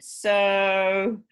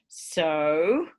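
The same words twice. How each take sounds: First: It sounds like adding something more. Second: It sounds like asking for something.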